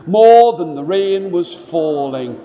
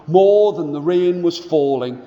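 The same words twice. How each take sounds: The two takes are said the same way.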